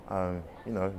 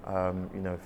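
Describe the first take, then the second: No difference in how they are said.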